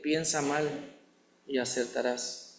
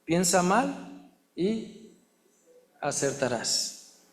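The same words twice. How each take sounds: First: Softer and lower, trailing off; soft quoted lie. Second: Slow mocking saying. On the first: Retold or imitated. Preacher quoting the lie people believe, softly. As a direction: let the lie fade away quietly. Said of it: "hemos creído en la mentira de". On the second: Preacher mocking a bad proverb, drawn out slowly. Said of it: "otro dicho malo que dice".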